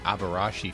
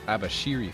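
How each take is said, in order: First: The name ends with the sounds 'rashi'. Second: The name ends with the sounds 'shiri'. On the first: The speaker calls it wrong. "for years I was pronouncing it the Abarashi family" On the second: The speaker calls it right. "but it's pronounced the Abashiri family"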